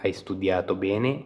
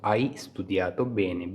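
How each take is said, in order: First: Slow, careful Italian model line; slow model phrase. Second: Slow model repeat. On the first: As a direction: spell it out slowly for learners. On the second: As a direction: say it again slowly for learners. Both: Shown as a demonstration. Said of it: "bene हो गया अच्छे से".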